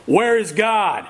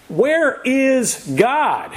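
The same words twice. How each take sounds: First: Half-hearted bellow from an insistent pastor; mock bellow. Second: Slow, high, drawn-out demand; sterner pastor. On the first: Pastor shakes his finger in the boy's face, mock bellowing. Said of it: "and bellowed". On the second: Acted. Pastor repeats his question to a silent boy, very sternly. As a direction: stretch each word out like a stern preacher. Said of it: "in an even sterner tone".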